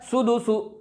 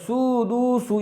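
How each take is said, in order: First: The vowels are kept short and quick. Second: The vowels are stretched out long. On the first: The speaker calls it right. "सही क्या है" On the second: The speaker calls it wrong. "ना इसको खींच कर पढ़ना है ... ये भी गलत हो जाएगा"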